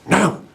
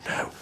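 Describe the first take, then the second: First: It is said loudly, as a forceful half-whisper. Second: It is said quietly, as a soft whisper.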